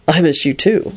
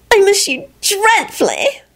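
First: Understated lover's reply; boyfriend voice. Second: Put-on very high, drawn-out girlfriend voice; gushing lover. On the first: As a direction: answer your sweetheart in a lightly voiced man's voice. Boyfriend answers on the phone. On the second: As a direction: pine slowly in a high, adoring voice. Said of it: "Solange sounded so thrilled". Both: A narrator's reading.

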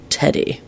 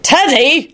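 First: Soft, rough reply. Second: High, alarmed shout of a name. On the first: Father naming his biggest worry, rough. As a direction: say the name low and roughly. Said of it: "Lupin responded roughly". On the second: Father trying to silence his son, shouted. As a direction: cry out to stop him. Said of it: "Lupin shouted". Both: A narrator's reading.

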